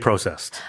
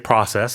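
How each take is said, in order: First: It is said with a Canadian pronunciation. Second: It is said with an American pronunciation. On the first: "Canadians will say processed" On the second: "Americans will say processed"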